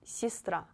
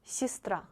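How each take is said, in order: First: The first vowel sounds like ee. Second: The same.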